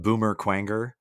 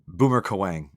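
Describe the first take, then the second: First: The last name is said like 'kwanger'. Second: The last name is said like 'kawang'. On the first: This is a childhood way of saying the name. "when I was a kid, I pronounced it Boomer Quanger" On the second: This is the usual way of saying the name. "Boomer Kawang. Okay"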